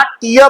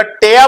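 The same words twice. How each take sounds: First: टिया with an "ee" sound, "tee-uh"; noun pronunciation. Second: टेया with an "eh" sound, "teh-uh"; verb pronunciation. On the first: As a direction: say टिया with long "ee", no r. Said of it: "और पढ़ोगे क्या?". (टिया, "ई" की आवाज़ के साथ) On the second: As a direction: say टेया with open "eh", no r. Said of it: "अगर टेया पढ़ोगे तो". (टेया, "ए" की आवाज़ के साथ) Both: Shown as a demonstration.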